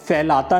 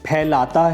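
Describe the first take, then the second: First: The word begins with an f sound. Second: The word begins with an aspirated p sound. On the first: The speaker calls it wrong. "फैलाता नहीं है" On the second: The speaker calls it right. "फैलाता है"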